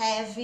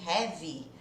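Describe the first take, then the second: First: The word ends on a bare v sound. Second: An extra vowel sound follows the final v. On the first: The speaker calls it right. "É só o som do V de V" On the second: The speaker calls it wrong. "ao invés de heavy"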